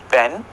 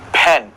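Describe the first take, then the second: First: The p sounds like another language's p. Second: The p sounds like the English p. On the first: The speaker calls it wrong. "It is not pen" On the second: The speaker calls it right. "it is pen"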